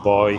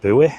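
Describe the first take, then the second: First: It is said as one syllable, like boy. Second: It is said as two syllables, boo-ee.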